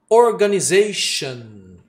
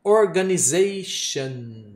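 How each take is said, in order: First: Slow, firm Organization, stress on za; slow model word. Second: Slow Organization again; model word repeated. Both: Shown as a demonstration. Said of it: "eu dei exemplo".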